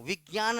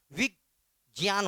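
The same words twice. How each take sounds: First: विज्ञान said "vig-gyaan", with a hard g; common VIGYAN pronunciation. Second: विज्ञान drawn out as "vij... jyaan"; VIJNYAN pronunciation. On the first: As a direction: put a g sound in the middle of विज्ञान. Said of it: "विज्ञान नहीं होता". (विज्ञान में "ग्य" की आवाज़) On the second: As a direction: split विज्ञान slowly, with j instead of g. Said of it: "विज्ञान होता है". (विज्ञान को धीरे "विज्-यान" बोलना) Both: Shown as a demonstration.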